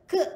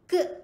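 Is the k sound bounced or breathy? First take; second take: bounced; bounced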